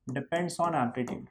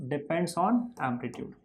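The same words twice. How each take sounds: First: Very slow, softer rote recitation; slow drilled answer. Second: Very slow, softer repeat with a laugh. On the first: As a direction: drag each word out for the class. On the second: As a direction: say it again while laughing. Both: Shown as a demonstration. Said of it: "loudness किस पे depend करता है?".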